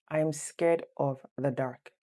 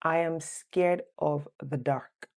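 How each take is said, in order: First: Said in the usual way. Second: Careful slow dictation for students; slow, clear quiz voice; slow quiz reading. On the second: Shown as a demonstration. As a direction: read the quiz sentence slowly and clearly. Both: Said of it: "Number one".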